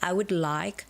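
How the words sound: The stress falls on I and like. The speaker calls it right. "I and like has to be like sort of um, emphasized"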